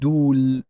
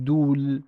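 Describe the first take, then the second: First: The waw is a long u vowel, one syllable. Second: The same.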